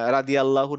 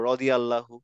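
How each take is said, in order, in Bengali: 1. r-এর পরের স্বরধ্বনিটি 'a' এর মতো শোনায়। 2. r-এর পরের স্বরধ্বনিটি 'o' এর মতো শোনায়। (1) "না বলে" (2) "বলবো"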